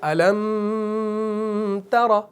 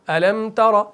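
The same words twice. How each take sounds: First: The m sound is held long before tara. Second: The m sound passes quickly without holding. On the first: The speaker calls it wrong. "हमने नहीं किया" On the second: The speaker calls it right. "जल्दी से पढ़ना है, रुकना नहीं है"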